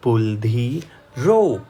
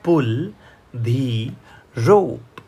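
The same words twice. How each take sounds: First: Said in the usual way. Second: Slow model reading. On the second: Shown as a demonstration. Teacher reading slowly, word by word, for students. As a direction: read it slowly for learners. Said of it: "દોરડું ખેંચો".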